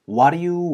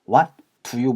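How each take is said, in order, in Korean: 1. t는 빠지고 d는 탄설음(flap)으로 납니다. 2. 'what'의 t 소리는 분명하게 발음됩니다. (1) "앞에 T 사운드를 많이 지워서 모음 소리 사이에서 있는 이 D 사운드를 굴려주는 소리" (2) "what do you 보다는요"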